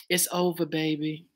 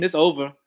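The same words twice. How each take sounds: First: Hushed, low R&B singer impression. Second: Said in the usual way. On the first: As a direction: softly imitate a smooth singer, trailing lower. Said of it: "In my [name] voice".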